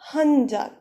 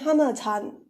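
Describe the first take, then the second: First: The number is shortened to han. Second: The number is said in full as hana. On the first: The speaker calls it right. "You would say Hanjan" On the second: The speaker calls it wrong. "that is wrong"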